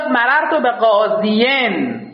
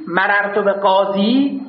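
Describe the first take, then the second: First: قاضین with the ending sounded out as "-iyin"; original full form. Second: قاضی ending in a plain long "ee", no case ending; reduced form. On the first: Teacher showing students what it was originally, full form. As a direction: say قاضین with an extra syllable after the long ee. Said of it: "این بوده". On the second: Teacher showing students the shortened word, reduced form. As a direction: say قاضی slowly, closing on a long ee. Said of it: "این بوده مررت به قاضین". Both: Shown as a demonstration.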